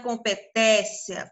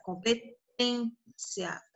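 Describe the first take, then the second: First: Competência with an open É in the TEN syllable; wrong open vowel. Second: Competência slowly, with a closed, nasal Ê in TÊN; closed vowel. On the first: Teacher showing pupils how it is not said, open-vowel mispronunciation. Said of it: "não é competência". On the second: Teacher correcting the vowel for pupils, slow closed pronunciation. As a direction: draw out competência softly with a closed ê. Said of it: "ele tá mais fechadinho". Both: Shown as a demonstration.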